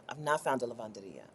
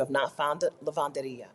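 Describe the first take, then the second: First: Softer, dejected repeat; a half-hearted mournful aside; mock-sad murmur. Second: Said in the usual way. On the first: Shown as a demonstration. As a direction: let it sink, muttered to yourself. Repeats lament about no laundromat.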